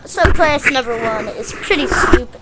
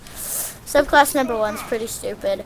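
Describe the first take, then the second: First: It is spoken in an Australian accent. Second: It is spoken in the speaker's plain accent.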